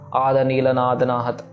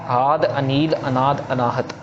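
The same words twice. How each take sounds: First: The words are run together without pauses. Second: Each word is separated by a short pause. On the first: The speaker calls it wrong. "इनको एक साथ बोल के नहीं निकल जाना है ना, ... ऐसे नहीं करना है" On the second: The speaker calls it right. "इनको प्रॉपर ठहराव देके पढ़ना है"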